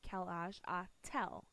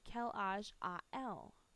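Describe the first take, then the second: First: A t sound separates the two vowels. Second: The two vowels run together without a t. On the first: The speaker calls it right. "we had to stick a T in here" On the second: The speaker calls it wrong. "That just flows too well together"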